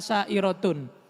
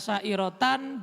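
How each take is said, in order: First: The word ends in '-un'. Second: The word ends in '-an'. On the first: The word is the predicate of an omitted subject. "boleh dibaca sa'irotun" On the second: The word describes the state of the subject. "boleh dibaca sa'irotan"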